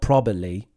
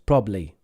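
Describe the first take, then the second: First: The word is said with three syllables. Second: The word is said with two syllables. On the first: The speaker calls it wrong. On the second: The speaker calls it right. "Two syllables"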